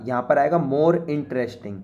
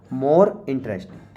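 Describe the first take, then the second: First: Said in the usual way. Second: More interesting said very slowly; slow dictation. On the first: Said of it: "gives the answer in normal talk". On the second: Shown as a demonstration. Teacher repeating the answer slowly for students to copy. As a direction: drag out more interesting so they can write it. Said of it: "repeating the answer slowly".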